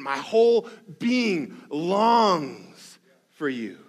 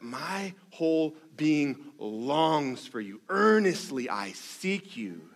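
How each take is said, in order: First: Slow, drawn-out and louder, pressing with grit; psalm line read with grit and yearning; gritty longing. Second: Slow, hushed and aching; heartbroken longing. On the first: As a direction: squeeze the longing out of every word. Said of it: "the grit that comes with that statement". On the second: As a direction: pastor voicing David's sad longing. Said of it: "in this very dry, dangerous, sad, heartbroken". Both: Acted.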